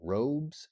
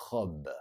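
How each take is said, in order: First: Robes with an English R and Z ending. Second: Robes with a French R, no final S. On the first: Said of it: "here in English, you also have robes". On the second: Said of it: "here in English". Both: Shown as a demonstration.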